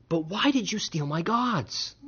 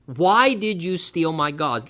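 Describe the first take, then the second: First: Incredulous quote. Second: "Why did you steal my gods?" drawn out slowly, each word weighed; slow emphatic quote. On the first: Retold or imitated. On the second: Shown as a demonstration. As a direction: lay it out slowly so they hear the absurdity. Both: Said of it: "just consider that statement".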